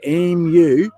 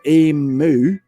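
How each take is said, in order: First: The second syllable sounds like 'myoo'. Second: The second syllable sounds like 'moo'. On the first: The speaker calls it right. "Think of em, em, and then the word you. And if you could say them together" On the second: The speaker calls it wrong. "the way you pronounce it sounds like it's E M O O"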